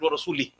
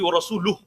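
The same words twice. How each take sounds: First: The case ending carries an i vowel. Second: The case ending does not carry an i vowel. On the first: God is free of the idolaters and of His messenger. The speaker calls it wrong. "Someone said ورسوله" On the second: God and His messenger are both free of the idolaters. The speaker calls it right. "It's supposed to be ورسوله"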